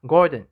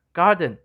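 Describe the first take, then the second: First: Garden said as "Gordon"; South African vowel. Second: Said in the usual way. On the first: Shown as a demonstration. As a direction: round the "ah" of garden back into "Gordon". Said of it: "which will be heard as Gordon instead". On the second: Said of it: "can be seen from the word garden".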